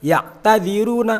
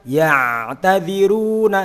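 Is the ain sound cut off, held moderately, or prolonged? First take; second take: cut off; moderately. First: The ain sound is cut off abruptly. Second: The ain sound is held moderately, in between. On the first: The speaker calls it wrong. "maka ain sukun ini masuk ke sifat syiddah" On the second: The speaker calls it right. "Bagaimana idealnya?"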